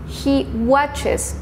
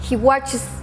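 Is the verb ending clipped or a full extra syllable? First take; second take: full syllable; clipped. First: The ending is said as a full extra syllable. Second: The ending is clipped without a full extra syllable. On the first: The speaker calls it right. "la pronunciación de estas terminaciones es toda la partícula" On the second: The speaker calls it wrong. "no dicen"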